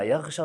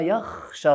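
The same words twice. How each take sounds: First: The consonant is a voiced 'gh' sound. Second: The consonant is a voiceless 'kh' sound. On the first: The speaker calls it wrong. "فكلمة يخشى خاطئة" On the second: The speaker calls it right. "وإنما الصحيح قوله"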